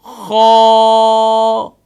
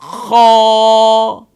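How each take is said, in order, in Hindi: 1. इसके बाद एक खुला स्वर आता है और अंत में वह खिंचता है। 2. इसके बाद एक खुला स्वर आता है और अंत में वह खिंचता है।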